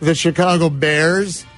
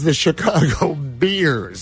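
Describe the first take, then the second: First: The name is said with the vowel of 'bear'. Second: The name is said with the vowel of 'beer'. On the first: The speaker calls it right. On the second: The speaker calls it wrong.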